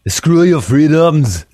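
It is said in an imitated foreign accent.

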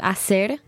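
The c is said as s, Mexican style.

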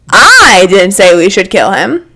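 The stress falls on the word 'I'.

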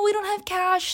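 The tone is soft, polite and friendly. It is a polite apology for not buying. The speaker calls it right. "In my head I thought I said"

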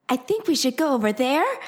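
It follows an odd Japanese-like pitch pattern.

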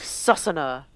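The name is said with attempted Hungarian sounds. The speaker calls it right. "It's probably like Susanna"

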